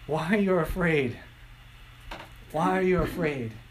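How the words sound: It sounds gentle and encouraging.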